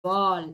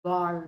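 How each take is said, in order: First: "ball" ending in a tongue glide from mid-palate; gliding tongue. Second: "ball" ending with tongue rolled back deep on the palate. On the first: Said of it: "gliding your tongue from the middle". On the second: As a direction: curl the tongue far back to end "ball". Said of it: "just rolling over your tongue". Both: Shown as a demonstration.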